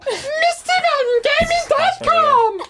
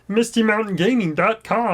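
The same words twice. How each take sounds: First: It is said in an Elmo voice. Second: It is said in a Kermit voice.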